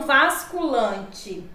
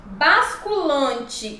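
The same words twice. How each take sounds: First: "vasculante" slowly, v in place of b; wrong pronunciation. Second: "Basculante" slowly, starting with b; correct pronunciation. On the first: Teacher showing the improper form, "vasculante" with v. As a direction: start "vasculante" with a v. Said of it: "e não vasculante". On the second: Teacher giving the proper form, slow "Basculante" with b. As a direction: give "Basculante" a clear initial b. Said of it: "a forma adequada e a forma inadequada". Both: Shown as a demonstration.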